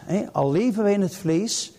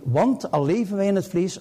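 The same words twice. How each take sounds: First: Said in the usual way. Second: Want hit first and firmly; opening want given weight; stress on want. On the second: Shown as a demonstration. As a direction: lean on the word want to open the line. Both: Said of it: "want betekent dat".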